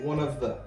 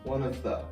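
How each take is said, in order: First: The words are said quickly and run together. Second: The same.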